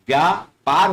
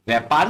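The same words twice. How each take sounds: First: व्यापार as "vyaa-paar"; correct pronunciation. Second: व्यापार as "vai-paar"; wrong pronunciation. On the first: Teacher gives correct व्यापार, said "vyaa-paar". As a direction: say व्यापार with long yaa. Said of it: "व्यापार होता है". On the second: Teacher rejects the mistaken व्यापार, said "vai-paar". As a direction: say व्यापार with ai in place of yaa. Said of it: "व्यापार नहीं होता". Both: Shown as a demonstration.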